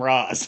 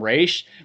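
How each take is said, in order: First: The name ends with a z sound. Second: The name ends with an sh sound. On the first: Americans say it this way. "all the Americans call him Raz" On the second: His own followers say it this way. "Ra's al Ghul's people kind of call him Raish"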